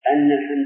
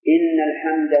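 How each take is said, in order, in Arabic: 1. الكلمة الأولى تبدأ بالصوت 'a'. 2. الكلمة الأولى تبدأ بالصوت 'i'. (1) "أما إذا كانت الفتح أن الحمد لك" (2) "إن بكسر الحمد أصبح مفسرا"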